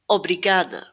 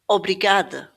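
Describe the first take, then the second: Both takes have the same delivery.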